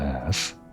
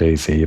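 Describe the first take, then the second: First: The name is spoken as a single syllable. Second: The name is spoken as two separate letters. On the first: "I reverted back to Az. I guess Az just sounds normal" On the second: "I said I'd pronounce it A Z"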